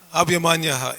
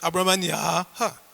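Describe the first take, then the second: First: The vowel before the final ha is short. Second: The vowel before the final ha is long. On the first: The speaker calls it wrong. "So it's not" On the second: The speaker calls it right. "Long A. So it's Abramanyaha"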